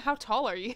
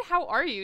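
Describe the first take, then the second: First: Said in the usual way. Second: "How are you?" with HOW hit hard; stress on HOW. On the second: Shown as a demonstration. Correcting a misheard greeting, "How" stressed. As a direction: land on "How" then fall. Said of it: "I said".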